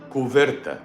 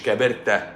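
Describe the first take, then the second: First: The middle consonant is a v sound. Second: The middle consonant is a b sound. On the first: The speaker calls it right. "كوفيرتا بالV" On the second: The speaker calls it wrong. "مش كابرتا"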